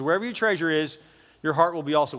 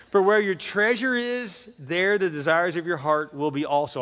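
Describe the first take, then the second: First: Said in the usual way. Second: Reads the verse slowly through a laugh; slow, amused scripture read. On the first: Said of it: "Jesus says". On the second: Real, not acted. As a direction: savour the line, chuckling as you go. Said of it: "I love that line".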